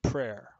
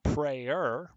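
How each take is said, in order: First: "prayer" said as one syllable, PRAIR; "prayer" rhyming with "air", one beat. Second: "prayer" said slowly as PRAY-er, two syllables; "prayer" stretched into PRAY-er, the one who prays. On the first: Teacher giving students the usual reading, one-syllable PRAIR. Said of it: "usually it's just prayer". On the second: Teacher showing the wrong reading to students, slow PRAY-er. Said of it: "it's not prayer". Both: Shown as a demonstration.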